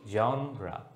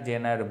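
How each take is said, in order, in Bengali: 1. এটি 'jonra' বলা হয়, শেষে 'ra'। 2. এটি 'jenar' বলা হয়, 'j' উচ্চারণে। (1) "এটার উচ্চারণ হচ্ছে জনরা" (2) "যারা জেনার জেনার জেনার বলছো তাদেরটা হয়নি"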